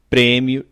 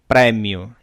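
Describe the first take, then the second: First: The stressed vowel is closed. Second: The stressed vowel is open. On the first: This is how it is said in Brazil. "no Brasil dizemos ... fechados" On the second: This is how it is said in Portugal. "em Portugal dizem ... abertos"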